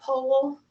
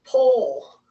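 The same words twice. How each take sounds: First: Powell said in two syllables, POW-ell; own pronunciation. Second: Pole said as one syllable, rhyming with hole; one clean syllable, Pole like hole; y'all's pronunciation. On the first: Teacher to class, saying Powell her own way as POW-ell. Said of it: "I know how to say it". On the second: Teacher to class, switching to how they say Pole, one syllable like hole. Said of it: "how y'all say it". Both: Shown as a demonstration.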